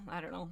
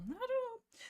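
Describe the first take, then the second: First: Said in the usual way. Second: "I don't know" lifted high and lilting; playful high "I don't know"; high sing-song "I don't know". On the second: Real, not acted.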